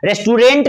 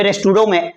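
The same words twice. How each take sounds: First: रेस्टोरेंट with the t sounded at the end; the everyday wrong रेस्टोरेंट; habitual English form. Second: रेस्टोरों with a silent final t, nasal ending; correct French-style word. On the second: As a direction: say रेस्टोरों, not restaurant. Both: Shown as a demonstration. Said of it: "रेस्टोरेंट नहीं बोलते हैं".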